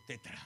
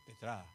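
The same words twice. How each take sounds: First: "tetra" stressed on the opening "te"; stress on first syllable. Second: "tetra" stressed on the final "tra"; stress on last syllable. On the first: Preacher showing his other way of "tetra", stress on first "te". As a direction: put the accent of "tetra" up front. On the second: Preacher showing one way he says "tetra", stress on final "tra". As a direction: land the accent of "tetra" at the end. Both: Shown as a demonstration. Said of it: "a veces digo".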